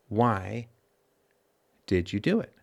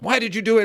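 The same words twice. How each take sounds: First: It is said calmly, with open curiosity. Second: It is said angrily, like yelling.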